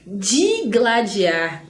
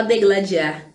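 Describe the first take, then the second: First: "Digladiar" very slowly, opening on DI; correct pronunciation. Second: "degladiar" opening on DE; quick "degladiar", E in the first syllable; common mispronunciation. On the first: Teacher models what nobody says, correct pronunciation. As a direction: stretch the first I of "Digladiar". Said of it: "ninguém fala isso". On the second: Teacher shows what everybody says, common mispronunciation. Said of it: "todo mundo fala degladiar". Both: Shown as a demonstration.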